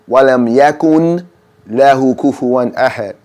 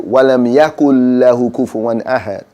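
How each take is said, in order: First: The n sound is clearly pronounced before lam. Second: The n sound is silent, merged into lam. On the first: The speaker calls it wrong. "If you say it wrongly, it will be" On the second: The speaker calls it right. "It's a noon there, but we make it silent"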